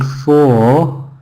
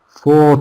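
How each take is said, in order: First: The word has a full, unreduced vowel. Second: The word has a weak, reduced vowel. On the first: The speaker calls it wrong. "Not four" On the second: The speaker calls it right. "how can we reduce it?"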